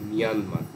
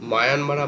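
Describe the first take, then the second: First: The first syllable sounds like 'mee'. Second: The first syllable sounds like 'my'. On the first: This is the actual pronunciation. The speaker calls it right. "Actual প্রোনাউন্সিয়েশনটা মিয়ানমার" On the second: This is the common local way of saying it. The speaker calls it wrong. "মায়ানমার আমরা বলি বটে"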